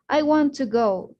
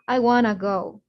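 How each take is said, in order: First: "Want to" is said as two full words. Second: "Want to" is run together as "wanna". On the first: "they don't say things like" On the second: "they say things like"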